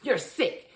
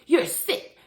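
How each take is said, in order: First: Said in the usual way. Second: Higher and louder, repulsed; husband disgusted at his wife, louder; disgusted outburst. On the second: Retold or imitated. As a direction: spit it out in disgust. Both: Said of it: "And he's like".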